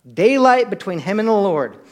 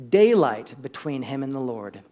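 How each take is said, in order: First: DAYLIGHT hit loud and higher; emphatic repeat. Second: Said in the usual way. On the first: Real, not acted. Preacher drives the answer home to church, emphatic on DAYLIGHT. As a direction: punch the word DAYLIGHT, then fall away.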